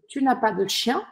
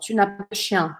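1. O tom sobe no fim. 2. O tom desce no fim. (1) "E eu subo" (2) "E eu baixo, ó"

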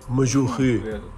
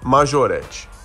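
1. A palavra termina em vogal, sem T. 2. A palavra termina com um som de T audível. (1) "Eu escuto muito [name]" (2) "Tem um T no final"

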